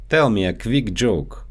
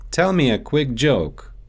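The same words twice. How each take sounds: First: Quick said as "kvick" with a v; Russian-accented "quick" as kvick; quick joke with a Russian kv. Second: Said in the usual way. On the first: Shown as a demonstration. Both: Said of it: "so they often get mixed up in English".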